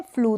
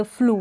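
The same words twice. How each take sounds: First: Second फ्लू said as "flyoo"; wrong-reading demo, फ्लू as "flyoo"; mispronounced with y-glide. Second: Said in the usual way. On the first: Shown as a demonstration. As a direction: put a "y" before the vowel in फ्लू. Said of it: "फ्लू करके नहीं पढ़ेंगे". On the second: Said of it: "तो इसको भी आप".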